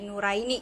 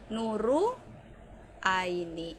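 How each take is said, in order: First: The r runs straight into Aini. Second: An extra u vowel follows the r. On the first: "saya nggak spasi ... jadi nu, ra, i, ni" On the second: "saya nggak mau dipanggil dengan Nu Aini, saya bilangnya akan Nuru Aini"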